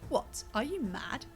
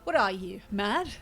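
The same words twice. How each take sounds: First: The pause comes after "what". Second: The pause comes after "you".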